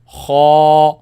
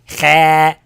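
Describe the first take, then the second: First: The sound is heavy and kept inside the mouth. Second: The sound is light and forward in the mouth. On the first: The speaker calls it right. "I say kha" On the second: The speaker calls it wrong. "I don't say kha"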